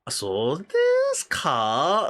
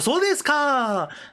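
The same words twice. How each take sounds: First: It is said slowly and drawn out. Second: It is said quickly on a high pitch. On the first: The listener is doubtful about it. "like when you drag a lot longer" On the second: The listener now understands. "like when you say in a high tone"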